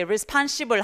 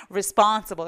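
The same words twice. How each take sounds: First: "responsible" as Korean re-spon-shi-bul; mock the Korean-accented "responsible"; wrong Konglish pronunciation. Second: "responsible" with English vowels, res-PON-se-bo; correct pronunciation. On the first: Teacher showing the wrong Konglish "responsible". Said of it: "하면 안 돼". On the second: Teacher showing the right "responsible". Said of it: "이렇게 하셔야 돼요". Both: Shown as a demonstration.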